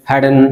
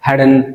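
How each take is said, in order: Both takes have the same delivery.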